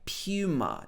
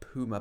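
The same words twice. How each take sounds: First: The first syllable sounds like 'pew'. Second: The first syllable sounds like 'poo'. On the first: This is the usual British way to say it. The speaker calls it right. "in the U K we would normally say Puma" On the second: This is not the usual British way to say it. The speaker calls it wrong. "not Puma"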